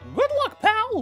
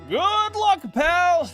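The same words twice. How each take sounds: First: It is said in a Mickey Mouse voice. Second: It is said in his normal voice.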